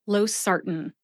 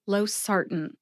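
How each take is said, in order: No difference in how they are said.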